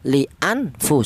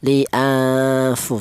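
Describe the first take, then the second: First: The n sound is pronounced clearly and distinctly. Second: The n sound is muffled and hidden. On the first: The speaker calls it wrong. "Cara bacanya jangan dibaca jelas. Li anfu seperti itu jangan" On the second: The speaker calls it right. "tapi yang benar dibaca ifa atau disamarkan. Li'anfu seperti itu"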